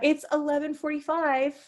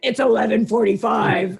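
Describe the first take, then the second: First: It is said in a warm, friendly tone. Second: It is said in a cold, curt tone. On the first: The speaker is being polite to a stranger. "instead of saying" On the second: The speaker is keeping a stranger at a distance. "I said"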